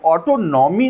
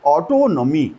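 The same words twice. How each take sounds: First: ऑटोनॉमी as auto-NAW-mee; "ऑटोनॉमी" mispronounced as auto plus nommy; wrong pronunciation. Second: ऑटोनॉमी with a weak, short 'nuh' before 'mee'; "ऑटोनॉमी" with the 'naw' reduced to 'nuh'; corrected pronunciation. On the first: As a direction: say "ऑटोनॉमी" with a full, stressed 'naw'. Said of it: "नहीं बोलते". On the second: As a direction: say "ऑटोनॉमी" as aw-TOH-nuh-mee. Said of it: "इसको कहते हैं". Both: Shown as a demonstration.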